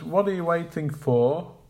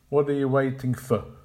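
First: The final 'for' is full, like 'four'. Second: The final 'for' is reduced to a weak form. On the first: The speaker calls it right. "For will be pronounced like the number four" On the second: The speaker calls it wrong. "rather than with the weak form for. So we can't say"

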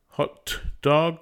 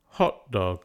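First: The t in hot is fully released. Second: A glottal stop replaces the t in hot.

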